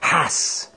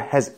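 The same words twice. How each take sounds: First: The word ends with a hissing s sound. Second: The word ends with a buzzing z sound. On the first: The speaker calls it wrong. "Otherwise, you would say" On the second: The speaker calls it right. "has never has ended with an S sound"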